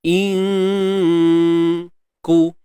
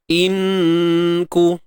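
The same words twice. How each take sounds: First: The n is hidden in a light nasal hum. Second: The n is fully articulated at the tongue. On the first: The speaker calls it right. "jangan tepat, so itu kata ikhfa tu sembunyi" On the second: The speaker calls it wrong. "Kalau tepat dia akan jadi inku"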